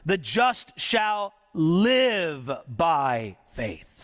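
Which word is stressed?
live. The word live carries the main stress. The focus is on how one lives.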